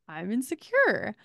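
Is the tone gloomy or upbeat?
upbeat. It is said in a bright, upbeat tone.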